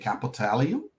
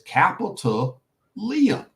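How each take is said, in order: First: The ending is blended smoothly into one word. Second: The ending sounds like the separate name Liam. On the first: Other people say it this way. The speaker calls it wrong. "I don't know why they say capitalium" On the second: The name follows the token called Liam. The speaker calls it right. "So it's capital Liam"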